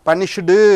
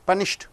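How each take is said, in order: First: The word ends with an added vowel sound. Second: The word ends sharply on a t sound. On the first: The speaker calls it wrong. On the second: The speaker calls it right.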